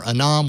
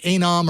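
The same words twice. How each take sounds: First: Anom said uh-NOM; pronunciation variant. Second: Anom said AY-nom; pronunciation variant. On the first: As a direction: say Anom with a short unstressed "uh" first. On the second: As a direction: say Anom with a long A, as in "day". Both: Shown as a demonstration. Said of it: "Is it Anom or Anom?".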